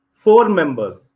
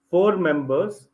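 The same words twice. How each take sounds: First: Said in the usual way. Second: Four members said slowly and softly, each word spaced; patient teacher emphasis on "four members"; slow stressed repeat. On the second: Shown as a demonstration. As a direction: drive "four members" home slowly so it sinks in. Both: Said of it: "teacher repeats the phrase".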